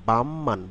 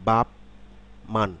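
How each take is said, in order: First: The first syllable ends in an m sound. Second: The first syllable ends in a p sound. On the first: The speaker calls it right. "শব্দটি হবে বামমান" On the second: The speaker calls it wrong. "আসলে কি বাপ মান?"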